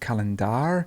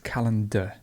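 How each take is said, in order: First: The final vowel is a full vowel. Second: The final vowel is a weak schwa. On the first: The speaker calls it wrong. "not calendar" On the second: The speaker calls it right. "notice at the very end we have the schwa"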